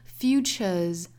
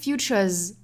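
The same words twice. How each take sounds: First: It is said heavily and with full weight. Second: It is said very lightly and quickly. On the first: The speaker calls it wrong. "不要读的过重，不是 futures" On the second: The speaker calls it right. "应该是很轻很快的 futures"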